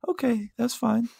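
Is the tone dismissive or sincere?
sincere. It sounds sincere and understanding.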